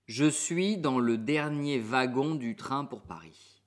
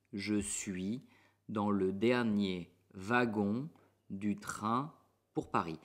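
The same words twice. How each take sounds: First: Slow, even French sentence; slow clear model sentence. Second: Slow, chunked, pausing between groups; word by word. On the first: Teacher models the sentence slowly for students. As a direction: say it slowly for learners. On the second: Teacher splits the sentence into chunks for learners. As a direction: break the sentence into small pieces. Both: Shown as a demonstration.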